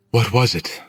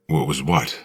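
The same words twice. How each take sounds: First: Put-on higher young woman voice; Willow. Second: Said in the usual way. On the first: A narrator's reading. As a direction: lift into a girl's voice, firm question. Willow, possessed girl, questions narrator.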